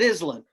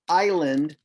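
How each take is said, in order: First: The s is pronounced. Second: The s is silent. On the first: "to help the child, you call it island" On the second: "you've done words like island"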